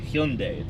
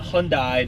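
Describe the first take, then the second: First: The word rhymes with Sunday. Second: The word does not rhyme with Sunday. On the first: The speaker calls it right. "what rhymes with Sunday? It is Hyundai" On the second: The speaker calls it wrong. "Not Hyundai"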